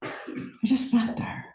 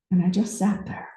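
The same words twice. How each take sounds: First: Very soft, slow, whispered repeat; near-whisper. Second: Soft, trailing into breath; hushed reflection. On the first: Speaker relives sitting still on the cliff, whispering slowly. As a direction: let it sink almost to a whisper. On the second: Speaker recalls sitting alone above the ocean, hushed. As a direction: softly let it settle. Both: Real, not acted.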